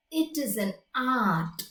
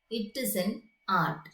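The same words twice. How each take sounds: First: Put-on old German shoemaker's accent on It is an art, lightly done. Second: Said in the usual way. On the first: Shown as a demonstration. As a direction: say It is an art like a German immigrant craftsman. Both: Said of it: "It is a German accent".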